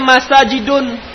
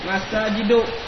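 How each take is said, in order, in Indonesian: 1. Kata itu diakhiri dengan bunyi n tambahan. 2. Kata itu diakhiri vokal biasa, tanpa n. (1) "Ini kada boleh dibaca Masajidun"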